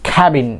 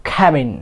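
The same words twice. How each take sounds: Both takes have the same delivery.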